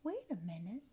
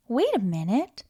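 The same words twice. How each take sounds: First: Far-off whispered echo; faint echo. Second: Said in the usual way. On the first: Acted. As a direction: echo it back very softly. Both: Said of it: "we have an echo in here".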